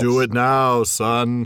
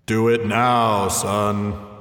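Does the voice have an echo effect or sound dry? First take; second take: dry; echo. First: The voice sounds dry, without an echo. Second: The voice has a booming echo effect. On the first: The order sounds ordinary and less commanding. The speaker calls it wrong. "Is nowhere near as effective as" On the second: The order sounds godlike and more commanding. The speaker calls it right. "my voice Echoed"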